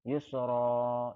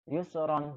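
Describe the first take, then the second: First: The word ends with a long vowel. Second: The word ends with an n sound.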